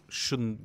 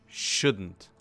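First: Said in the usual way. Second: "Shouldn't" set apart as one emphatic word, louder; stress on shouldn't. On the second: Real, not acted. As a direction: repeat "Shouldn't" on its own with firm emphasis. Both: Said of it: "Emphasis on shouldn't".

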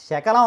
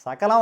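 First: శకలం with a clear palatal "sh" first. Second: సకలం with a clear dental "s" first. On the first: Teacher explains the word for piece, శకలం with a palatal "sh". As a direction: say శకలం with "sh", never "s". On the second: Teacher explains the word for complete, సకలం with a dental "s". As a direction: say సకలం with "s", never "sh". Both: Shown as a demonstration. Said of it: "సా బదులు శ వాడితే".

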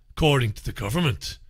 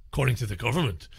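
First: Said in the usual way. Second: Lower, softer, quicker repeat; quiet aside. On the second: Real, not acted. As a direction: drop it into a quick, low aside. Muttered repeat as a sceptical aside.

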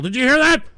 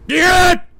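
First: Said in the usual way. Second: High, loud shout; real shouted repeat. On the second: Real, not acted. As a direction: yell it out at the sky.

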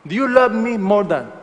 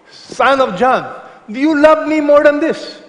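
First: Said in the usual way. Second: Higher, louder, searching question from Jesus; voicing Jesus. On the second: Jesus pressing Peter, asked higher and louder. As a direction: call out the question as Jesus would ask it.

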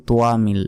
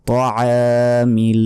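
First: Said in the usual way. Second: তোয়ামিল slow, with ع pressed and the a held a second; careful tajweed তোয়ামিল; throat ayn, long a. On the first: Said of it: "এটাও ভুল". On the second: Shown as a demonstration. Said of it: "আইনের উচ্চারণ করবেন".

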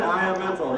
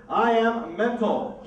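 First: Said in the usual way. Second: Drawn-out, showman's slow reveal; slow title announcement. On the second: Shown as a demonstration. Magician announcing his trick name, slowly and dramatically. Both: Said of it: "I call this first trick".

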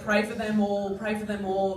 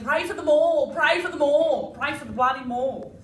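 First: Said in the usual way. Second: Mock chant. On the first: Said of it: "they haven't been saying". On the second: Shown as a demonstration. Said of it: "They've been saying".

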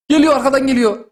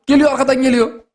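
Both takes have the same delivery.

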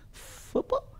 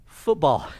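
First: Soft, almost whispered, imitated puzzlement; mock bewilderment, barely voiced; puzzled question. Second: Voiced, matter-of-fact correction; retold emphatic clarification; firm correction. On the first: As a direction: ask it very quietly, as a baffled foreigner. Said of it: "And he goes". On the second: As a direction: set him straight with a solid, falling statement. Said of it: "I said".

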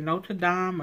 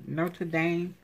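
First: "Notre Dame" with Dame said as "dahm"; Notre Dame, "dahm" ending. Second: "Notre Dame" with Dame said as "daym"; Notre Dame, "dame" ending. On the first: Vlogger checking how it is said, "Notre Dame" rhyming with "bomb". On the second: Vlogger checking how it is said, "Notre Dame" rhyming with "name". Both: Shown as a demonstration. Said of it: "Is it Notre Dame or Notre".

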